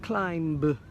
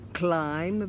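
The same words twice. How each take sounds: First: Each letter of the spelling is sounded out. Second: Every sound is said in the natural way. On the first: The speaker calls it wrong. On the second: The speaker calls it right.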